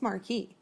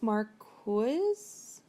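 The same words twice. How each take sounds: First: "Marquis" said mar-KEE, the s silent; Marquis without the s. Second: "Marquise" said mar-KEEZ, ending on a buzzing z. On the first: Podcaster settling the title's pronunciation, saying mar-kee. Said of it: "I think it's Marquis". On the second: Podcaster trying out the spelled-out title, pronouncing it mar-keez. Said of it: "but I'm fairly certain it's not". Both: Shown as a demonstration.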